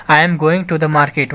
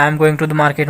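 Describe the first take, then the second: First: Very slow, word by word; slow teacher reading; slow dictation. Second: Said in the usual way. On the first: Shown as a demonstration. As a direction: spell it out slowly for the class. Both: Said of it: "teacher repeats example sentence".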